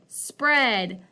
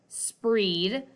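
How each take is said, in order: First: The vowel is short, like eh. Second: The vowel is long, like ee. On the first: The speaker calls it right. "I'm going to try flipping that vowel sound" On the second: The speaker calls it wrong. "that doesn't sound quite right"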